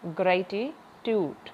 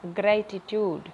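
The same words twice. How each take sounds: First: gratitude slowly, stress on grey; slow stress drill. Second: Said in the usual way. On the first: Shown as a demonstration. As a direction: draw out gratitude, hit the first syllable. (Gratitude धीरे, grey पर ज़ोर) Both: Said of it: "इसमें भी starting में ही है".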